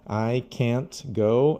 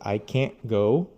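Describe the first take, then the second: First: It is said in careful, textbook style. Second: It is said in relaxed, natural everyday speech. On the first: "how I teach new students" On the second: "when we're speaking naturally"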